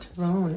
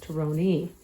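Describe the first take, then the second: First: The name ends without a final vowel sound. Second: The name ends with a sounded final vowel. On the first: The speaker calls it wrong. "Tyrone is not Tyrone" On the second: The speaker calls it right. "it's Tyrone ... you pronounce the last letter"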